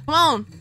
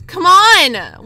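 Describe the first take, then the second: First: Said in the usual way. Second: Loud, higher come on; exasperated shout. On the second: Real, not acted. Gamer urges the player on, exasperated shout.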